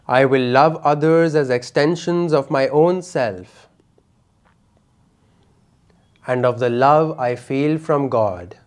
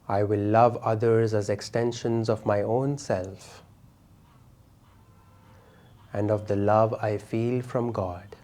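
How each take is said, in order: First: It is said loudly with energy. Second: It is said in a soft voice.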